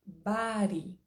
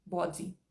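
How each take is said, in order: First: Body as bari with tapped r; American body. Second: Body with round o, bodi; British body. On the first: Teacher demonstrating American bari. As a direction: say body as bari, flapped like California. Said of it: "pronúncia americana estándar". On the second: Teacher demonstrating London bodi. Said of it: "principalmente no inglês britânico". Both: Shown as a demonstration.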